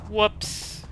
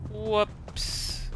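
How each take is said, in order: First: High playful whoops; a light, high little oops. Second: Softer high whoops; oops. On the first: Wrong road, oops reaction. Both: Real, not acted.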